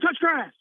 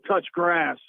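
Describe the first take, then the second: First: It is said in a surprised tone. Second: It is said in an indignant tone. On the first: "Or she could do like a surprise" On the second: "maybe like indignant one time"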